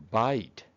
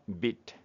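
First: バイト with "ai" as in eye; バイト, the vowel a full diphthong; long I sound. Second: ビット with a brief "ih"; ビット, clipped short vowel; short I sound. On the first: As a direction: say バイト like English "bite". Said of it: "イの長い音、". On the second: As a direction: say ビット short, like English "bit". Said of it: "イの短い音はビット". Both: Shown as a demonstration.

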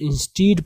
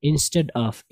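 First: "instead" with long ee, in-steed; common misreading. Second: "instead" with short e, in-sted; correct pronunciation. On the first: Retold or imitated. Teacher quotes how some people read it, "instead" as in-steed. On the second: Shown as a demonstration. Teacher models the right reading, "instead" as in-sted. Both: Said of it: "इसको लोग कुछ instead पढ़ते हैं".

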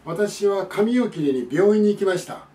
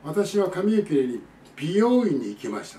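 First: Slower, higher, with 病院 run together as "byōin"; learner's word mix-up. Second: Slow sentence with 美容院 as "bi-yō-in"; corrected word. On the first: Acted. Foreign learner of Japanese announcing a haircut, 病院 said as "byōin". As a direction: say 病院 with "byo" as one syllable. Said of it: "日本語を学んでる外国人がですね". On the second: Shown as a demonstration. Teacher giving what the learner meant, 美容院 with separate "bi-yō". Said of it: "正しくは".

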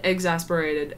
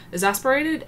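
First: Exasperated. said low, falling and final; settled repeat. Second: Exasperated? with a rising, questioning tune; questioning repeat. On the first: Answering her own question, Exasperated. falling. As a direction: land Exasperated. flat and sure. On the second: Repeating the word to herself, Exasperated? rising. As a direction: ask Exasperated? back to herself. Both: Shown as a demonstration. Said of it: "just because I'm so exasperated".

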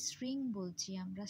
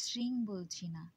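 First: শৃং begun with a hissing dental s; s sound in শৃং. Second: শৃং begun with a palatal sh; sh sound in শৃং. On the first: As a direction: say শৃং with an s as in English "sing", not sh. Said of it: "ছয়ের মতো অর্থাৎ দন্ত স উচ্চারণ". (শৃং-এ দন্ত্য স-এর উচ্চারণ) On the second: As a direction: say শৃং with sh as in "ship", as the wrong take. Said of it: "স উচ্চারণ না করে". (শৃং-এ তালব্য শ-এর উচ্চারণ) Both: Shown as a demonstration.

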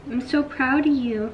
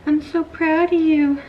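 First: Said in the usual way. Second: Higher, louder, slow doting praise to a puppy; gushing pet talk. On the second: Real, not acted. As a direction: coo it to the puppy, stretched out and loud.

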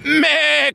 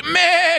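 First: Higher bleating goat cry. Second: A higher, longer goat bleat. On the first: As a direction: echo the goat's bleat. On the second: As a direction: bleat pitched up high. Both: Retold or imitated. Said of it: "cried the goat".

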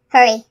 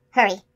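First: Much louder, high-pitched urging; urgent shout. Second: Higher, pressing call; urgent. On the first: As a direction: urge the magician sharply, raising your voice. Unicorn urges again, more forcefully. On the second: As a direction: urge the magician on. Unicorn urges magician to hurry. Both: A narrator's reading.

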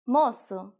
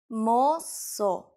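First: Said in the usual way. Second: Drawn out in two syllables; slow demonstration. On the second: Shown as a demonstration. Teacher showing learners the word for boy, slowly. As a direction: draw out each syllable for learners.

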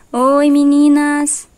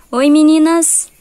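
First: Much higher and louder, stretched very slowly; very drawn-out cat greeting. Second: Much higher and louder, a slow sing-song hello; high sing-song cat greeting. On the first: Voicing her cat again to greet the girls, high and very drawn out. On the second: Voicing her cat to greet the girls, high sing-song. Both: Pretend.

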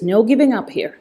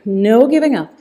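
First: Said in the usual way. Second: Louder, punched encouragement on "giving"; firm push. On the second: Shown as a demonstration. Coach urging the class on, louder on "giving". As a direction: lean on "giving" to drive the class. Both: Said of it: "Come on, you can do this".

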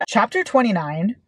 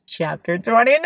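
First: Said in the usual way. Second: Chapter title squealed, climbing to a shriek; fangirl squeal. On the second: Real, not acted. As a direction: squeal it higher and higher.

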